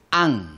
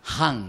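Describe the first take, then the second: First: The word begins directly with the vowel. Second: The word begins with a breathy h sound. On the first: The speaker calls it right. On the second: The speaker calls it wrong.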